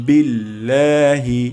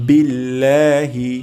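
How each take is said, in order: The two takes are said the same way.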